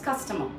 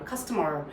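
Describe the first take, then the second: First: The final R is barely pronounced. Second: The final R is clearly pronounced. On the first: "British uh, people do not pronounce the R too much, so it becomes customer" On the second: "I'll roll my tongue and say the R"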